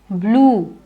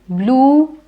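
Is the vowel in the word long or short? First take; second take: long; long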